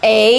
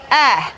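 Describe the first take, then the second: First: It is said as the letter name 'ay'. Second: It is said as a short 'eh' sound. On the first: The letter stands alone. "A kalau berdiri sendiri" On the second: The letter is inside a word. "kalau masuk ke dalam kata-kata bunyinya eh"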